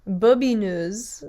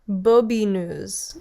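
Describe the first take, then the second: First: The name is said like 'bobineuse'. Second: The name is said like 'bobineuse'.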